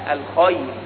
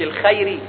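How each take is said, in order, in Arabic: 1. صوت الخاء ثقيل وممتلئ. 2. صوت الخاء خفيف ورقيق. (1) "وحرف الخاء من حروف التفخيم، لا الخير" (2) "مش الخيري"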